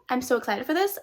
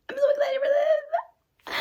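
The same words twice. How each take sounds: First: Said in the usual way. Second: Very high, slow, fake-sobbing wail; mock cry. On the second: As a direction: wail it like a pretend cry, dragged out. Repeats line in a wailing voice.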